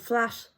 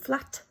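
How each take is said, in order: First: The final t is a sustained, sh-like hiss. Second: The final t is a crisp, cut-off stop. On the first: "sh. You can sustain that sound" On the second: "with a t, a crisp, cut off t"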